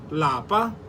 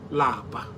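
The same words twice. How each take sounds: First: The word is said with a high tone. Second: The word is said with a low tone. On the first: The word means home. "In higher tone, lapa means home" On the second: The word means to be tired. "Lower tone, which lapa"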